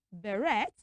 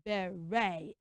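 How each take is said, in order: First: "beret" as beh-RET; wrong ET ending. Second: "Beret" low, as beh-RAY; AY ending. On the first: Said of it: "we do not say beret". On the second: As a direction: end "Beret" on a long AY, no T. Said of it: "We pronounce that word as what?". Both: Shown as a demonstration.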